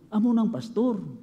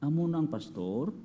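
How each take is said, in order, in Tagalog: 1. Parang simple at sang-ayon na pahayag. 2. Parang nag-aalinlangan at nagtatanong na pahayag. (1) "The same word but different intonation. Kung nami na obra mo" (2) "may question mark sa ulo nila"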